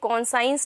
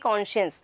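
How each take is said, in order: First: It is split into 'con' plus 'science'. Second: It is said as one word, 'kon-shuns'. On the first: The speaker calls it wrong. "ये कौन साइंस नहीं होगा" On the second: The speaker calls it right. "It's going to be कॉन्शियस"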